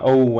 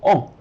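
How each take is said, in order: First: The vowel glides toward a W sound. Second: The vowel stays pure without gliding. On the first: "American English, has a lot of that uh, O" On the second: "a lot of languages go O"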